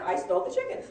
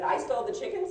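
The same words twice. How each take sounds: First: Said in the usual way. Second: Raised pitch, rising like a shocked question; incredulous question. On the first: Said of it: "the court reporter writes down". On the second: Retold or imitated. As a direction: deny it by asking it back in disbelief. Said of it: "there's no inflection in email".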